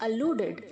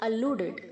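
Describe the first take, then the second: No difference in how they are said.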